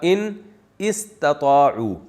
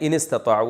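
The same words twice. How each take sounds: First: The two words are said separately, alif sounded. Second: The two words run together, alif silent. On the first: This is the underlying original form. "असल में था" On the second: This is how it is actually recited. "तो मिला के पढ़ा दिया, अलिफ साइलेंट हो गया"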